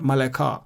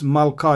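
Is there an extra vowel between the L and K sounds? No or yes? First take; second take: yes; no. First: The word has an extra short vowel after L. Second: The word has two syllables with no extra vowel. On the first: The speaker calls it wrong. "It's not" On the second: The speaker calls it right. "we don't pronounce the schwa under lamed"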